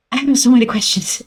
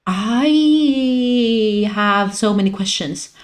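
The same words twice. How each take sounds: First: Rushed, breathless repeat; fast rush. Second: Slow, overwhelmed delivery; slow and drawn out. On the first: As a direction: rattle it off fast. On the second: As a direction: stretch every word slowly. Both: Shown as a demonstration.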